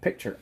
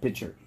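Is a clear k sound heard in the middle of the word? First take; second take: yes; no. First: The word has a clear k sound before ch. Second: The word has no k sound, like pitch. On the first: "A picture is a photograph or a rendering" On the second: "I'm not saying either one of those. I'm saying picture"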